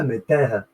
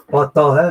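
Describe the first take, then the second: First: Taha said with a falling end, plainer level; corrected Taha. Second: Taha stressed loud, with a rising end; wrong Taha. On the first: Correcting his Taha reading for viewers, the right version. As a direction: give Taha the right way, settled. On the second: Correcting his Taha reading for viewers, the wrong version loud. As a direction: say Taha the wrong way first, punched. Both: Shown as a demonstration. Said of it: "Pas Taha, mais Taha".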